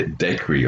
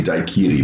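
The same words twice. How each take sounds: First: Daiquiri said as DACK-ree, squeezed into two syllables; English way. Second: Daiquiri said as TIE-kee-ree, first syllable like tie; German way. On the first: Retold or imitated. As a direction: daiquiri with a short dack sound and the middle vowel dropped. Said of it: "You say da-, daiquiri". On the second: Shown as a demonstration. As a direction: daiquiri with a long tie sound and three clear syllables. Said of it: "we say daiquiri".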